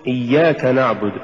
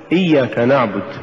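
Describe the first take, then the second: First: إياك نعبد chanted as iyyaka, then na'budu; correct recitation. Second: إياك نعبد split as iyya, then kana'bud; wrong split. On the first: Teacher recites the right way: إياك نعبد chanted. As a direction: chant إياك as one word before نعبد. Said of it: "قل". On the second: Teacher mimics the faulty split: إيا كنعبد. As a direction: break after إيا and join كنعبد. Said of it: "ولا تقل". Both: Shown as a demonstration.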